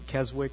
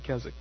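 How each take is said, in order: First: The w in the middle is pronounced. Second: The w in the middle is silent. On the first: The speaker calls it wrong. "I was pronouncing it Keswick" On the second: The speaker calls it right. "So the W is silent. ... but it's actually Keswick"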